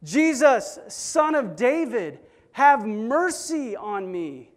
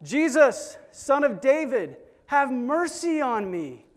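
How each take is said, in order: First: High, loud, slow desperate cry; yelling out louder. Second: High, loud desperate plea; crying out. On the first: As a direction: stretch the plea and hold it loud. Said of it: "But he yells out even louder". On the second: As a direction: beg for mercy from afar. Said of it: "And he cries out". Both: Retold or imitated.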